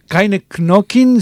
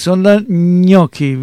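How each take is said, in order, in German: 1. Gnocchi wird deutsch ausgesprochen. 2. Gnocchi wird italienisch ausgesprochen.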